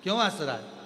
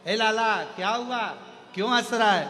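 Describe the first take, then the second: First: Said in the usual way. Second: Higher, louder call to the little one; doting mother calling. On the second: Retold or imitated. Mother calls to her laughing baby, higher and louder. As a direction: call out to the child like a fussing mother.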